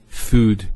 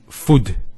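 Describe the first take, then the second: First: The vowel is drawn out long. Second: The vowel is said short. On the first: The speaker calls it right. "there's the elongation of the U sound" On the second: The speaker calls it wrong. "So we don't say food"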